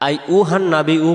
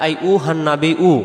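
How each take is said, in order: Both takes have the same delivery.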